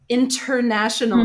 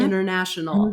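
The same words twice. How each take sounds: First: The T after the N is clearly pronounced. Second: The T after the N is dropped or flapped. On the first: The speaker calls it right. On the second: The speaker calls it wrong. "not international"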